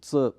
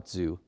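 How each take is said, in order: First: Tzu is said with its Mandarin sound. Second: Tzu is said as its letters suggest. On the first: The speaker calls it right. "but actually the term at the end there is Tzu" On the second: The speaker calls it wrong. "oftentimes I hear Lao Tzu"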